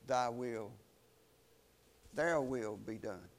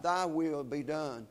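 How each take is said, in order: First: Softer and lower, stress "their" in "their will be done"; resister's reply. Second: Slow, weight on "Thy" in "Thy will be done"; believer's prayer. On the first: Resister answering God, quiet stress on "their". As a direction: swap "Thy" for a pressed, quieter "their". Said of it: "the person who resists the Holy Spirit, they say to God". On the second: Believer yielding to God, slow stress on "Thy". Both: Shown as a demonstration.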